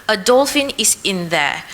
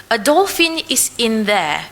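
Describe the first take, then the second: The two takes are said the same way.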